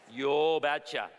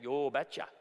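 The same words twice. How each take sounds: First: Slow, louder Norwegian "Yo betcha" drawn out; Norwegian accent. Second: Light Minnesota Norwegian "Yo betcha"; a mild Norwegian dad accent, said "yo betcha". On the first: Father granting permission, slow thick Norwegian accent. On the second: Norwegian father answering the suitor, mild Norwegian accent. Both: Retold or imitated. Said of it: "in his thick Norwegian accent".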